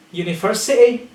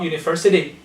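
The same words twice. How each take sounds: First: "university" as "universi'ee"; glottal T. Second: "university" with the T sounded; pronounced T. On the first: Teacher giving an example, "university" with a glottal stop for T. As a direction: catch the T of "university" in the throat. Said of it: "glottal T". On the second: Teacher showing what to avoid, "university" with T sounded. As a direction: say the "-ty" of "university" with the tongue. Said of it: "you don't pronounce the T". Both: Shown as a demonstration.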